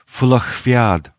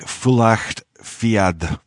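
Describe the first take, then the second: First: The name is not read the way it is spelled. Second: The name is read the way it is spelled. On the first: This is how the name is really said. The speaker calls it right. "but in fact it's pronounced Fulacht Fiad" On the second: This is how the spelling suggests it sounds. The speaker calls it wrong. "it looks like Fulacht Fiad"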